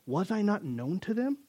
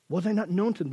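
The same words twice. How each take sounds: First: Reading the verse, voice lifting on them; scripture read with a rising end. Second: Known leaned on, falling end; stress on known. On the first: Pastor reading the verse to his congregation, them rising. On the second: Pastor repeating the verse to his flock, known stressed and falling. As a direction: repeat it, punching known and letting it drop. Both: Shown as a demonstration.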